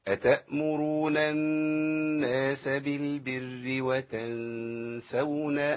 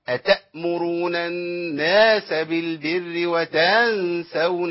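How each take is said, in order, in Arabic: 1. تُنطق الحروف برفق وسهولة. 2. تُنطق الحروف بشدة وقوة. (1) "القرآن يقرأ بسهولة ... ما عملش فيها عنف" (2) "عندهم عنف في القراءة ... ما تسمعوش حد بيقرأ كده ... لا القرآن لا يقرأ هكذا"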